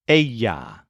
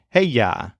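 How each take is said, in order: First: The word begins without an H sound. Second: The word begins with an H sound.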